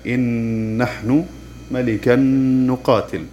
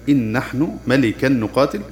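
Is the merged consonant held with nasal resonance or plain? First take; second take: nasal; plain. First: The merged consonant carries a nasal hum held two beats. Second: The n merges into a doubled consonant without nasal hum. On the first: "نصدر صوت الغنة بمقدار حركتين فيصير نطقها الصحيح" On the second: "ندغم النون الساكنة والتنوين في الحرف المتحرك بعدها مع تشديده"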